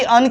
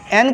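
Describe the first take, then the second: First: The vowel sounds like 'u' in 'up'. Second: The vowel sounds like 'e' in 'end'. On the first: "कभी अन के तरह होता है" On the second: "कभी एन के तरह होता है"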